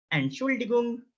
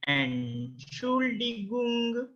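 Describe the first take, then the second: First: Entschuldigung run together at normal pace, higher pitch; Entschuldigung joined up, high and even; whole-word model. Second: Entschuldigung very slow, softer and higher; Entschuldigung in long, separated, high syllables; slow pronunciation model. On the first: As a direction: say Entschuldigung as one connected word, "en-shool-dee-goong". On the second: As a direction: stretch Entschuldigung out syllable by syllable, "en-shool-dee-goong". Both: Shown as a demonstration. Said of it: "try to pronounce it".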